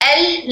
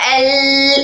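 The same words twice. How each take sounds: First: The sound is cut off abruptly. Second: The sound is drawn out long. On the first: "ना ऐसे रोकना है" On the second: "ना एल इतना लंबा करना है"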